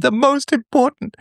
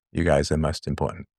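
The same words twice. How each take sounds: First: Very high, slow, put-on voice for The most important; hammed-up emphasis. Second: Much lower and softer, You guys are most important muttered; quiet aside. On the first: Joking self-correction, hammed up. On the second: Real, not acted. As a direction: drop to a low, soft afterthought. Quiet aside after the joke.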